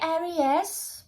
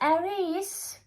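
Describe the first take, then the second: First: It is read out letter by letter, Norwegian style. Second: It is said with the usual English vowels. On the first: The speaker calls it wrong. "please stop say Aries" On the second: The speaker calls it right. "because it's Aries"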